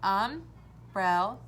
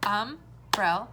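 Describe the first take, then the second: First: Umbrella drawn out slowly as um-brel-la; split into syllables. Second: Umbrella clapped out in three beats; clapped syllables. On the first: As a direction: stretch Umbrella into three beats. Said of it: "as we say the word umbrella". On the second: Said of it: "You could also clap it out". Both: Shown as a demonstration.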